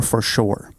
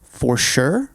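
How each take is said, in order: First: "for sure" with the other regional vowel, falling at the end; pronunciation variant. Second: "for sure" in one of two regional ways, rising as a choice; pronunciation variant. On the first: Friend polling others on dialect, contrasting pronunciation. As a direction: say "for sure" as the second option, settling down. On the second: Friend polling others on dialect, pronunciation variant. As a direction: say "for sure" as the first option, lifted at the end. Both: Shown as a demonstration. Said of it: "do you say".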